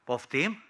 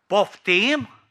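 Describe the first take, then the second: First: Said in the usual way. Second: Louder, higher, drawn-out question; indignant disbelief. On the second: Acted. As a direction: challenge it loudly in disbelief. Asks again, growing more indignant.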